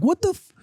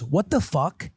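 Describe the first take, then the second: First: High "What the f-", cut on the f; bitten on the F. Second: Lightly voiced kid, "What the fuck" said in full; mimicking child. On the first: Retold or imitated. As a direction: bite off "What the f-" at the f. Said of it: "When I bit on the F". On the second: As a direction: imitate a child finishing the curse, a little higher. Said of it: "She just goes".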